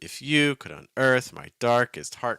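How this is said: The word unearth carries strong stress. The speaker calls it wrong. "I wouldn't personally read this ... because that gets a little bit robotic"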